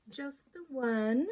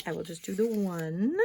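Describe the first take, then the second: First: Slow, higher, drawn-out "Just the one."; a slow, sing-song confirming echo; slow emphatic repeat. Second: Said in the usual way. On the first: Shown as a demonstration. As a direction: stretch "one" out, pitched up.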